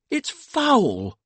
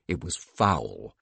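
First: High indignant outburst, falling at the end; indignant wife. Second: Said in the usual way. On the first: A narrator's reading. Sadie to her husband about the news, indignant cry. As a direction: cry out in high-voiced disgust. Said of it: "said Sadie".

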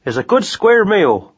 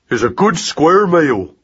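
First: Higher rat-catcher voice, relaxed; Jim's voice. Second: Slow, careful parroting; Magnus echoing. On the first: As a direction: promise breakfast cheerfully. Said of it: "he said". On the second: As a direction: copy the words slowly. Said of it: "said Magnus". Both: A narrator's reading.

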